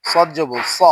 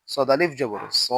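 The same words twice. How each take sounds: First: Final স with a short vowel; স not drawn out; no stretch. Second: Final স with a long vowel; স held long; stretched vowel. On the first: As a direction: cut the last স short. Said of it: "তখন কোথাও টান দিব না". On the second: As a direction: draw out the last স. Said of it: "জবরে আমরা টান দিব". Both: Shown as a demonstration.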